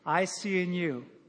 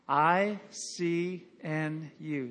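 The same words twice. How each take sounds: First: The letters are said very fast. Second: The letters are said at a moderate pace. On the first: "Now real quick" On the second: "Say it with me"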